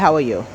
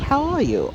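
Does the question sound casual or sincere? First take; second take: casual; sincere. First: It is asked in a casual, routine way. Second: It is asked in a sincere, caring way. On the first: It is just a greeting. "it's kind of just regular" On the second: The asker really wants to know. "someone really looks at you and says"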